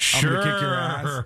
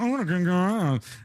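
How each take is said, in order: First: It is said in a normal voice. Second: It is said in a childish mocking voice.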